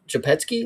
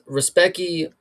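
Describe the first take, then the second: First: The name begins with a soft zh-like sound. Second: The name begins with a plain English R sound. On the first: "they call him Japet, Japetsky" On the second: "what I will say is Respecki"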